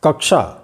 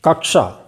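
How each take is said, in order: The two takes are said the same way.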